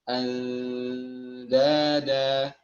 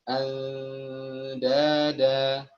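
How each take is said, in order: Both takes have the same delivery.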